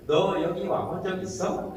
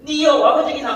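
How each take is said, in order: First: Soft, slow Seoul intonation; Seoul speech shown as an example; Seoul accent. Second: Loud, high-pitched Gyeongsang dialect; blunt Gyeongsang-dialect demo, pitched up; Gyeongsang accent. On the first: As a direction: demonstrate a gentle Seoul-dialect question, drawn out. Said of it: "이렇게 서울 말 아닙니까?". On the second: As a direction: punch out the question in Gyeongsang intonation. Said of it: "이게 완전히 영국식 영어". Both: Shown as a demonstration.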